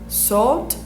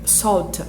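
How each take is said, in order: First: The final vowel sound is dropped. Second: The final vowel sound is clearly pronounced. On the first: The speaker calls it wrong. "teria o som da palavra sal" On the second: The speaker calls it right. "ela tem um, um somzinho um pouco mais é, pesado, assim"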